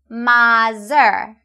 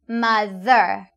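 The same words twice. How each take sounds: First: The middle consonant is not a 'th' sound. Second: The middle consonant is a 'th' sound. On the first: The speaker calls it wrong. "I often hear you say mother" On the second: The speaker calls it right. "the correct pronunciation is mother"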